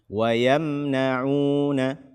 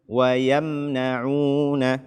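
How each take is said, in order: No difference in how they are said.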